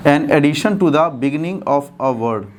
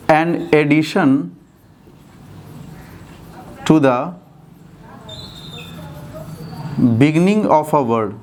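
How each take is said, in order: First: Slow, deliberate, in one continuous phrase; joined-up dictation. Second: Very slow, in separate chunks with long pauses; slow dictation. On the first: Teacher repeating the definition for students, slow and joined up. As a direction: read the definition through slowly without long breaks. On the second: Teacher giving students a definition to write, slowly dictated. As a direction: dictate phrase by phrase, waiting after each. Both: Shown as a demonstration.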